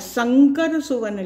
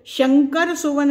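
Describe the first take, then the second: First: The first word begins with an s sound. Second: The first word begins with an sh sound. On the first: The speaker calls it right. "संकर सुवन लिखा है" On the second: The speaker calls it wrong. "श को शंकर सुवन नहीं लिखा है"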